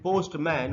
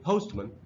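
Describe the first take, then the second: First: The last syllable has a full 'a' vowel. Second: The last syllable has a weak schwa vowel. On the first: The speaker calls it wrong. "वो गलत उच्चारण है" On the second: The speaker calls it right. "हमको इसको पढ़ना चाहिए"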